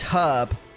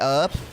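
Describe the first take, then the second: First: The word starts with a clear H sound. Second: The word starts with no H sound. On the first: This is the British way of saying it. "That's not something we do in Britain" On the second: This is the American way of saying it. "Americans just skip out the H altogether"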